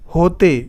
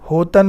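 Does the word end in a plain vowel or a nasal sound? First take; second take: plain vowel; nasal. First: The word ends in a plain vowel sound. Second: The word ends in a nasal sound. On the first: The speaker calls it right. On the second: The speaker calls it wrong.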